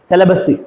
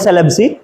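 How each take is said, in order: First: The name is said with three syllables. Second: The name is said with two syllables. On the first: The speaker calls it right. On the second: The speaker calls it wrong. "नोट सेलेब सी"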